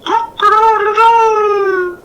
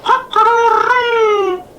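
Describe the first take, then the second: First: High, slow crowing cock-a-doodle-doo; loud, drawn-out rooster crow. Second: High, loud falling crow; hammed-up rooster crow; mock rooster crow. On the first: A narrator's reading. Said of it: "He made his call to the hens". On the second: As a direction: crow like a cockerel to amuse your wife. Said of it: "And the cockerel said".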